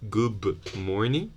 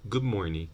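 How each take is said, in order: First: A full stop bursts audibly before morning. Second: The lips close with no burst before morning. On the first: "There is no burst. Yeah, you don't you, you don't say good morning" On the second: "in connected speech might be pronounced as good morning"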